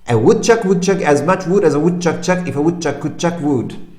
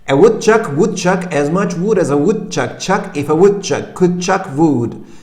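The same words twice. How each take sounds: First: It is said as fast as possible. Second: It is said at a moderate speed.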